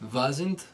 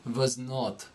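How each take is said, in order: First: It is said as one contracted word. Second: It is said as two full separate words.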